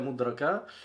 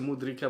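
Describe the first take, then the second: First: The vowel after the r is a. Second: The vowel after the r is i.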